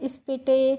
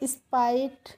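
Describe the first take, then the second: First: The ending sounds like 'itay' with short i. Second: The ending sounds like 'ite' with long i. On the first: The speaker calls it wrong. "इस तरीके से आपको नहीं पढ़ना है" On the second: The speaker calls it right. "इस तरीके से पढ़ेंगे"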